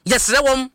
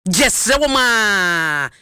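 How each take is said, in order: First: Said in the usual way. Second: Very slow, stretched-out final word; drawn-out plea. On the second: Real, not acted. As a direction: beg them, dragging out "wɔm a" in one long falling tail. Plea repeated, long drawn out.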